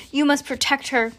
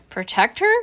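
First: Said in the usual way. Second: PROTECT HER with a questioning rise at the end; puzzled echo question. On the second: A narrator's reading.

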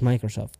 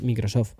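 First: Microsoft with an English my, maikrosof; English-style Microsoft. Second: Microsoft read letter by letter the Spanish way, mikrosof; Spanish-style Microsoft. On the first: Friends correcting his brand names, English pronunciation. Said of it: "No dices Microsoft". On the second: Friends correcting his brand names, Spanish reading. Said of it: "dices Microsoft". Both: Shown as a demonstration.

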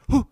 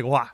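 First: A sudden loud "Who?" to spook her. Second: A sudden loud "Wah." like a jump scare. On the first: Husband shows the word he really said to scare her, loud. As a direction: call out "Who?" sharply to startle. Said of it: "I mean, "Who?". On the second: Husband shows the wrong word he supposedly yelled, loud. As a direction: bark out "Wah." to startle. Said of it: "I didn't even say, "Wah". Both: Shown as a demonstration.

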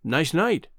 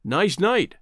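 First: Casual, understated small talk; careless remark. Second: Pointedly repeated, ending on a rise; quoting another's words. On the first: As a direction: toss it off lightly, in passing. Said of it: "remarked carelessly to Bud". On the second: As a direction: hold the two words up as evidence. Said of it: "he sprung them two words on me". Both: A narrator's reading.

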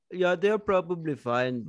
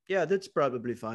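First: Put-on Indian accent, slightly higher; comic Indian accent, brushing off a worry; mock Indian accent. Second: Botched attempt at a young Hawaiian guy's accent; casual brush-off in an unplaceable, would-be Hawaiian accent; muddled Hawaiian accent. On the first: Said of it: "it was an Indian man who moved to Hawaii". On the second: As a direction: try a Hawaiian accent and miss. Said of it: "I don't know what that accent was".

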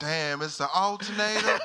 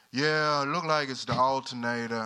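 First: Higher, louder mock country reaction; adopted country accent. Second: Loud country mechanic drawling the diagnosis; country accent. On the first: Customer copying the country mechanic, high loud country accent. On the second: Retold or imitated. Country mechanic reporting to his customer, loud country accent. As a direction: imitate a country mechanic, loudly. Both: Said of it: "I would adopt a country accent".

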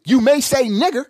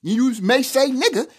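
First: "nigger" with the final r clearly sounded; higher pitch, finish "nigger" on a distinct "-er"; hard -er ending. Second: "nigger" with no r, ending in "-a"; higher pitch, finish "nigger" on an open "uh"; final -a ending. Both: Shown as a demonstration. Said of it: "depending on how you speak".

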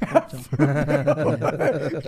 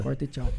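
First: "Corta e tchau" stretched very slowly through laughter; laughing slow repeat; drawn-out laughing. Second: Said in the usual way. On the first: Shown as a demonstration. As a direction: drag out "Corta e tchau" while cracking up.

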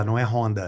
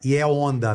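First: "Honda" with a breathed H at the start; sounded H. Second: "Honda" with no H, starting on the vowel: "onda"; silent H. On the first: Showing what Portuguese do not say, "Honda" with H sounded. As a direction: say "Honda" with an audible English-style H. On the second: Showing how Portuguese say the bike brand, "Honda" without H. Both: Shown as a demonstration. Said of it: "ninguém fala o H lá".

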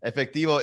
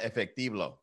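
First: Said in the usual way. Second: "efectivo" said with an extra l, as efectiblo; own mispronunciation. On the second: Shown as a demonstration. Host joking about his bad Spanish, "efectivo" mispronounced as efectiblo. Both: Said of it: "but I call it efectivo".

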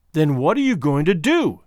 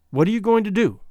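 First: Contained demand, pitch held down; understated, tense insistence. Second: Higher-pitched, abrupt demand; sudden, raised-pitch challenge; abrupt question. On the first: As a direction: hold back a brewing outburst. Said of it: "with a tense, quiet utterance that boded an outbreak". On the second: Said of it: "she asked abruptly". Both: A narrator's reading.

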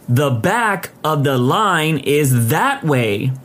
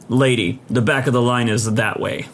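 First: "back", "line" and "that way" each stressed, very slow; emphatic. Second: A touch of firm authority. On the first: Repeating it to a queue-jumper, slow and emphatic. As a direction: spell it out slowly, punching "back", "line", "that way". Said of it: "the emphasis on those three words". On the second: Man in the queue to a queue-jumper, firm. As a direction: firmly send them to the back. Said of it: "says in a firm voice". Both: A narrator's reading.

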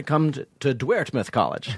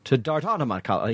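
First: "Dwertmouth" said with a "dwert" sound instead of "dart"; mispronounced Dartmouth. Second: "Dartmouth" said properly, "dart" like an arrow; correct Dartmouth. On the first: Retold or imitated. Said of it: "Pablo Francisco's fuck ups". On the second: Shown as a demonstration. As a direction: say "Dartmouth" the right way. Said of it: "He literally couldn't say Dartmouth".

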